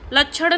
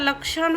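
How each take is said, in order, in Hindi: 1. बीच का व्यंजन chh ध्वनि है। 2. बीच का व्यंजन ksh ध्वनि है। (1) "लक्षण नहीं होता" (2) "लक्षण होता है"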